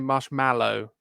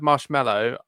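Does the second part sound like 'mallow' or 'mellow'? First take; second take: mallow; mellow. First: The second part sounds like 'mallow'. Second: The second part sounds like 'mellow'. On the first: This follows the spelling but nobody says it. The speaker calls it wrong. "I don't say marshmallow. I don't know anyone who says marshmallow. Yeah, it is spelled that way" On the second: This is how people actually say it. The speaker calls it right. "if I say the word marshmallow"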